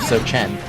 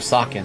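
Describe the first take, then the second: First: The middle consonant is a soft sh sound. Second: The middle consonant is a hard k sound. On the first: "Whenever I see C H, I think of Sochen" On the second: "instead of Socken"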